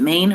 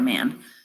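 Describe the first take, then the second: First: The name has a long vowel, like 'main'. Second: The name has a short vowel, like 'man'. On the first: "I think it's Maine, um, even though there's no I or E" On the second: "I see Man when I read it, so that's how I say it"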